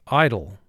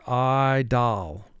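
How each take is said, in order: First: The second vowel is reduced to a weak sound. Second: The second vowel is a clear short o. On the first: This is the everyday conversational pronunciation. "In conversation, we say idle" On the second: This is an exaggerated pronunciation to help with spelling. "for spelling purposes, you would pronounce this word idol"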